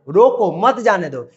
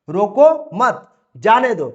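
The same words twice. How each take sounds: First: There is a pause right after 'roko'. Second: There is a pause right after 'mat'. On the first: "तो यहां पर बोलेंगे रोको मत जाने दो" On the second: "यहां पर हम बोलेंगे कि रोको मत, रोको मत, जाने दो"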